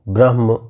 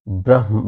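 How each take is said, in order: No difference in how they are said.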